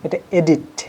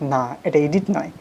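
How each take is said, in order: First: "এডিট" said the correct English way; right pronunciation shown. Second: "এডিট" said the mistaken local way; wrong pronunciation shown. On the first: A teacher giving students the correct form. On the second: A teacher showing students the common mistake. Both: Shown as a demonstration.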